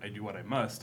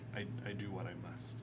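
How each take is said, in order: First: It is said plainly, without emotion. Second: It is said hesitantly, sounding sad and guilty. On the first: It is a plain statement of duty. "it would just be like saying it like" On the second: The speaker feels guilty about the deed. "it sounds more like"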